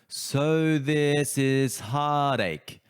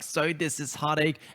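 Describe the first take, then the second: First: The words are spoken with loose, easy articulation. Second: The words are spoken with a tight, clenched jaw. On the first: The speaker calls it right. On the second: The speaker calls it wrong.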